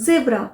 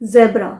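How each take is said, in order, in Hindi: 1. यह American English accent में बोला गया है। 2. यह ब्रिटिश इंग्लिश एक्सेंट में बोला गया है। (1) "अमेरिकन प्रोनाउंसिएशन है" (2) "ब्रिटिश प्रोनाउंसिएशन है"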